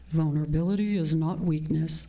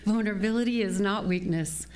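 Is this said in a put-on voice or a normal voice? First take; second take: put-on; normal. First: It is said in a put-on character voice. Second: It is said in the speaker's normal voice.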